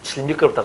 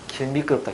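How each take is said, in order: First: The first word begins with a j sound. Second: The first word begins with a g sound. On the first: The speaker sounds like a country dialect speaker. The speaker calls it wrong. "질 미끄럽다 그러면 촌년이라 한다" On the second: The speaker sounds like a standard speaker. The speaker calls it right. "길 미끄럽다 해야 돼"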